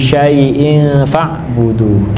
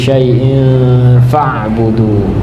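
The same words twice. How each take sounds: First: The nasal is a clear 'ng' sound. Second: The nasal is hidden, shaped toward 'f'. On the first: The speaker calls it wrong. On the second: The speaker calls it right.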